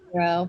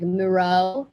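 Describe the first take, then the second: First: The stress is on the first syllable. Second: The stress is on the last syllable. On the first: "but it's just Miro. I mean, that's how I say it" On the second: "people emphasize the O, so they'll say like"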